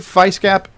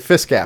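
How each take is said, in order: First: The first vowel is a long 'eye' sound. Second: The first vowel is a short 'ih' sound.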